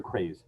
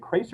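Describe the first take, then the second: First: Craze with a buzzed z at the end; z-ending pronunciation. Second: Crace with a hissed s at the end; s-ending pronunciation. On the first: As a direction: say Craze ending in a voiced z sound. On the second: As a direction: say Crace ending in an unvoiced s sound. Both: Shown as a demonstration. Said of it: "is it Crace or Craze".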